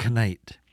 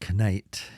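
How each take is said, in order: First: A K sound is pronounced before the N. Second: A K sound is pronounced before the N.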